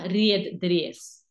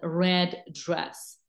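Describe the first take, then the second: First: The vowel sounds like the letter name 'ee'. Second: The vowel is a short 'eh' sound. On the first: The speaker calls it wrong. "Not red dress" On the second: The speaker calls it right. "but red dress"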